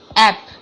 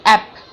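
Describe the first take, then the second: The two takes are said the same way.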